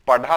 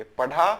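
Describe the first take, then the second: First: पढ़ा said with a hard aspirated stop, paḍhā. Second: पढ़ा with a breathy retroflex flap, paṛhā; flapped ṛh. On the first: Teacher showing students the wrong form, पढ़ा with hard ḍh. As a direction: stop the tongue firmly on ḍh in पढ़ा. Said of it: "पढ़ा तो नहीं बोलेंगे". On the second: Teacher giving students the right form, पढ़ा with flapped ṛh. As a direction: flick the tongue on the ढ़ of पढ़ा. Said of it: "अंतर है ना?". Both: Shown as a demonstration.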